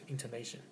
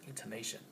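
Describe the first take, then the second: Both takes have the same delivery.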